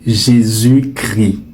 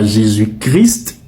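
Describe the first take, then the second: First: The S and T of Christ are silent. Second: The S and T of Christ are pronounced. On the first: The speaker calls it right. "mais vous direz" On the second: The speaker calls it wrong. "vous ne direz pas"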